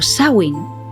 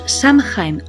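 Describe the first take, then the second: First: It is said close to the original Gaelic. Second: It is said the usual Spanish way. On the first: The speaker calls it right. "cuya pronunciación real es algo parecido a Samhain" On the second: The speaker calls it wrong. "pronunciaremos Samhain"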